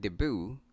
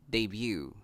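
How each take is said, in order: First: "debut" as dih-BOO; weak first vowel in "debut", then boo; common mispronunciation. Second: "debut" as day-BYOO; y glide in "debut": day-byoo; correct pronunciation. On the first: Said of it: "A lot of us pronounce this word". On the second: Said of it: "the correct way to say this". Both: Shown as a demonstration.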